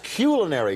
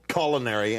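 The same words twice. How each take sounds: First: The first syllable does not sound like 'cull'. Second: The first syllable sounds like 'cull'. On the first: The speaker calls it right. "it's culinary, damn it" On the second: The speaker calls it wrong. "has the word cull in it"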